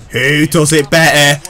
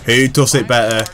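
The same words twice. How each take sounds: First: Asked again with stress on better, louder; boastful challenge to viewers. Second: Said in the usual way. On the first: Real, not acted. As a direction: throw the question out as a brag.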